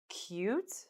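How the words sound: The pitch rises at the end.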